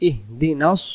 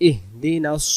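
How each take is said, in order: Both takes have the same delivery.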